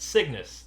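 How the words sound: The word sounds bold and confident.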